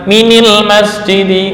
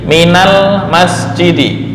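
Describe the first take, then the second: First: Min is linked to the noun with an i vowel. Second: Min is linked to the noun with an a vowel. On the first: The speaker calls it wrong. "bukan minil masjidi, nggak ada" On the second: The speaker calls it right. "menjadi minal masjidi"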